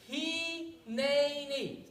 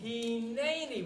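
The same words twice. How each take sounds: First: Hineni drawn out very slowly, hi-ne-ni; reverent Hineni. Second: Hineni, slow clear syllables hi-ne-ni; Hebrew word said slowly. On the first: Moses answers God, Hineni slow and solemn. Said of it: "Let's say that word again". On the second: Teacher shows the children how to say Hineni. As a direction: model Hineni for the kids, slowly. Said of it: "can you say the word Hineni?". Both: Shown as a demonstration.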